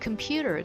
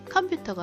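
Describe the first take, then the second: First: The stress falls on the second syllable. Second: The syllables are said evenly, with no strong stress. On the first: The speaker calls it right. "이음절 강세" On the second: The speaker calls it wrong. "컴퓨터가 아니라"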